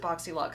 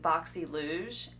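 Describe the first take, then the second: First: The last part sounds like 'lux'. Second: The last part sounds like 'luge'. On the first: The speaker calls it right. "Now I'm seeing everybody pronounce it BoxyLuxe" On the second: The speaker calls it wrong. "for the longest time I have called it Boxy Luge"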